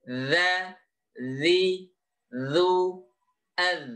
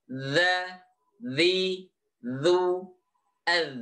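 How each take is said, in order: The two takes are said the same way.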